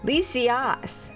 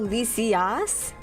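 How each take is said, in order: First: The A vowel is said strongly. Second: The A vowel is said strongly.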